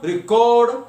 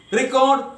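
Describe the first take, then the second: First: "record" as re-CORD, drawn out on the end; second-syllable stress. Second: "Record" as REC-ord; first-syllable stress. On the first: Teacher reading verb example, second-syllable stress. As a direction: say re-CORD, leaning on the last syllable. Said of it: "stress will be on the second syllable". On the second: Teacher reading noun example, first-syllable stress. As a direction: say REC-ord, punching the front. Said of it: "first syllable". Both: Shown as a demonstration.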